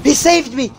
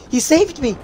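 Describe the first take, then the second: First: High, amazed cry of relief; excited relief. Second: Excited relief. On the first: Streamer cheering the ally who saved him, high excited cry. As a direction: blurt it out, stunned to be alive. Rescued in game. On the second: Streamer repeating his rescue in disbelief, high excited cry. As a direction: say it again, still in disbelief. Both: Real, not acted.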